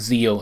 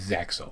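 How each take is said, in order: First: The name has no 'ks' sound in the middle. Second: The name has a 'ks' sound in the middle. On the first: This is the name used in the Japanese version. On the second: This is the name used in the English version.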